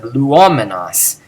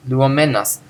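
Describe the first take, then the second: First: "luomenos" slow, with the accent on O; older stress. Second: "Luomennos" with the accent on MEN; stress on men. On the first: Teacher showing how it used to be said, stressed O. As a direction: stress the second syllable, "luOmenos". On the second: Teacher showing the present participle, stressed MEN. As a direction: stress the third syllable, "luoMENnos". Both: Shown as a demonstration. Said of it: "Not like it used to be said".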